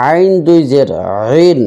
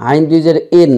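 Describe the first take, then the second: First: আইন and রিন squeezed from mid-throat; throat-pressed Ain. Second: ইন with no throat squeeze; light glottal start on ইন; mistaken hamza. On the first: Shown as a demonstration. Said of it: "হলকের মাঝখানে চাপ দিয়ে". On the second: Retold or imitated. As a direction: model the error, ইন starting like a plain vowel. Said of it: "অনেকেই ... এরকম উচ্চারণ করে".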